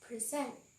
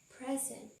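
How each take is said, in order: First: The stress is on the second syllable. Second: The stress is on the first syllable. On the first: It is a verb meaning to deliver something. "The first one is present, which means to deliver something" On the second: It is a noun meaning a gift. "the second one is present, as in a gift"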